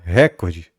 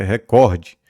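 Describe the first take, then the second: First: Recorde stressed on the first syllable, RÉ-cor-de; recorde as the mistake, RÉ-cor-de; wrong stress. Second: Recorde stressed on the middle syllable, re-COR-de; recorde the right way, re-COR-de; correct stress. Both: Shown as a demonstration. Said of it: "E não é recorde, é recorde".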